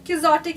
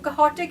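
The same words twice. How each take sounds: First: The word is pronounced in an English style. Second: The word is pronounced in a Spanish style. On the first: "the English pronunciation" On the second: "the proper Spanish pronunciation"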